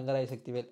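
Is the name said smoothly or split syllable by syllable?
smoothly. The name is said smoothly without breaks. The line has little impact. The speaker calls it wrong. "அப்படின்னா அந்த impact இருக்கா?"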